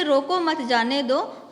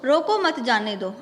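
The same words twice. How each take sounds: First: रोको set apart, then मत जाने दो together; slow, split after रोको; pause after रोको. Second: रोको मत grouped, then जाने दो; pause after मत. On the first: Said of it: "पहले वाक्य का अर्थ हुआ उसे रोक लो". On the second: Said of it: "दूसरे वाक्य का अर्थ हुआ उसे मत रोको". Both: Shown as a demonstration.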